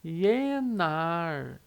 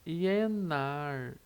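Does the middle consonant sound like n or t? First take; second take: n; n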